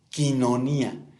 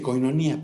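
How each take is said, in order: First: The first syllable has the vowel sound i. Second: The first syllable has the vowel sound oi. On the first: The speaker calls it right. "el diptongo oí, poniéndolo en español, se pronuncia i" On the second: The speaker calls it wrong. "Hay quien dice coinonía"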